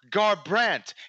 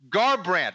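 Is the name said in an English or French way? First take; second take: French; English. First: The name is said with a French-sounding pronunciation. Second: The name is said with a plain English pronunciation.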